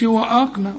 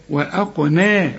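First: وأقنى said with a wrong, thin ق; wrong pronunciation. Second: Slow وأقنى with a heavy, emphatic ق and light noon; correct pronunciation. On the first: Teacher imitates student's error, wrong qaf. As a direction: model the mistake: وأقنى with a careless qaf. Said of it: "خطأ". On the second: Teacher gives the correct version after the mistake. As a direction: thicken the qaf in وأقنى. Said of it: "القاف هي المفخمة". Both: Shown as a demonstration.

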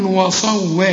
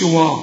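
First: وصوا with a light و and a heavy ص; correct take. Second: وا said heavy, the wrong way; mock the heavy وا; wrong take. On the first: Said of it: "هنقول وصوا". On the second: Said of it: "فما تقولش وا". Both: Shown as a demonstration.

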